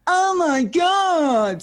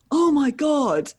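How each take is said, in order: First: Much higher, louder, very slow shrieked "Oh my God"; out-squeal him, drawn right out; drunken squeal. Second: Higher, louder, slowed-down awestruck "Oh my God"; starstruck gasp. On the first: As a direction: drunk and thrilled at one in the morning, squealing. Her drunk excited reply. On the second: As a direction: retell the fan's stunned, drawn-out gasp. Guy recognising her, starstruck. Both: Retold or imitated.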